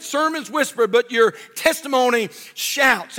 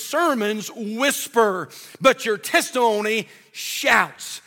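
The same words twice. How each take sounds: First: Emphatic repeat. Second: Slow, weighty quote with space between words; slow saying. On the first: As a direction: repeat it brighter to drive it in. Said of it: "And that's so true". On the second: Preacher quotes a saying to the church, slow and weighty. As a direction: let the saying land slowly. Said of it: "Somebody said it like this". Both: Shown as a demonstration.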